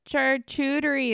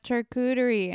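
First: The word is said in an altered, jokey pronunciation. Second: The word is said in its usual pronunciation. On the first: Someone else says it this way as a joke. "he says charcuterie" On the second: This is how the word is normally said. "instead of charcuterie"

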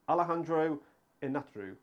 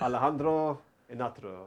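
First: The name is said in an English accent. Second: The name is said in a Spanish accent. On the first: "I tried to say it without the accent" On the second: "Do it with the accent"

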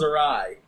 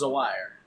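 First: The word sounds like 'uh-rye', ending in 'rye'. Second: The word sounds like 'a wire', two parts. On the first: The speaker calls it right. "Did I say that right? Yes" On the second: The speaker calls it wrong. "What is A-wire?"

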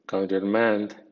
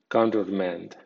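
First: The first part 'counter' carries medium stress. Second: The first part 'counter' carries strong stress. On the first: It is used as a verb. "con acento medio" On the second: It is used as a noun. "con acento fuerte"

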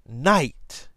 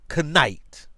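First: The word starts with an N sound, no K. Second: The word starts with a sounded K before N. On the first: "with the silent K" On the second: "were pronounced"

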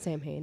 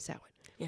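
First: It is said the way it is spelled. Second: It is said the Gaelic way. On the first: The speaker calls it wrong. "It's not SAM-HANE" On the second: The speaker calls it right. "It's actually SAH-WIN"

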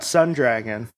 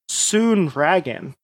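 First: The first word has the short vowel of 'sun'. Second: The first word has the long vowel of 'soon'. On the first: "Sun Dragon or Soon Dragon" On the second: "Sun Dragon or Soon Dragon"

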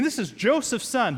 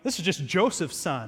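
First: It sounds amazed and admiring. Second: It sounds dismissive and doubtful.

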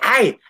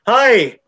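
First: The shout sounds thin and strained from the throat. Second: The shout sounds full and backed by deep breath. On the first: The speaker calls it wrong. "Hindi yung sigaw" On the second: The speaker calls it right. "Take a deep breath. Supportado po siya"

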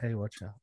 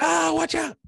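First: The warning is said calmly and evenly. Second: The warning is said in a panicked shout.

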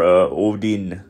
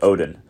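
First: The final N sound is held longer. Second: The final N sound is short. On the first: This is the original Old Norse form. "the N is kind of a little bit longer in the first pronunciation" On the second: This is the anglicized form. "the angelicized one is just Odin"

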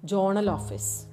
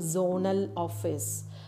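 First: The first word starts with a j sound. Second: The first word starts with a z sound. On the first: "pronouncing it as journal office" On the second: "the sound z"

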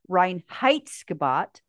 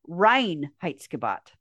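First: The second syllable is strongly stressed. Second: The second syllable is not stressed. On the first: The speaker calls it wrong. "strongly stressing the second syllable" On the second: The speaker calls it right. "instead of"

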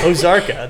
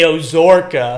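First: The word is said the standard way. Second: The word is said in the speaker's own accent. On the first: The speaker calls it right. "That's how it's supposed to sound" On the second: The speaker calls it wrong. "My accent makes me say Ozarka"

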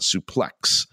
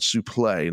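First: The final x sound is pronounced. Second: The final x sound is silent. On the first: The speaker calls it wrong. "not suplex" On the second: The speaker calls it right. "where the X was silent"

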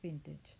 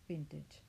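First: It is said with an English pronunciation. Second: It is said with an English pronunciation.

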